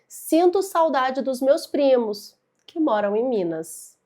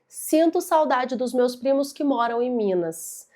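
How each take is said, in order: First: There is a pause after "primos". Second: There is no pause after "primos". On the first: All of the cousins live in Minas. "perceba no ritmo da minha fala" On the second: Only some of the cousins live in Minas. "Veja que sem a pausa"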